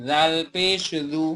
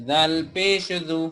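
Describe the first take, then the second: The two takes are said the same way.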